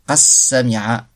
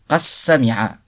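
The two takes are said the same way.

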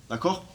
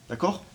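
Both takes have the same delivery.

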